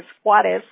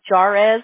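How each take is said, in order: First: The name starts without an English J sound. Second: The name starts with an English J sound. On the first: The speaker calls it right. "you don't pronounce the J" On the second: The speaker calls it wrong. "they would tear up my last name"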